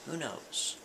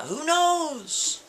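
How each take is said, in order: First: Quiet murmured take. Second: Pitched way up, drawn-out and wondering; high exclaimed take. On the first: Storyteller answering himself, a soft throwaway murmur. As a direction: let it fall away under the breath. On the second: Storyteller musing aloud to his listeners, high and wondering. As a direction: toss the question high into the air. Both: Shown as a demonstration. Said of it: "repeats the question two ways".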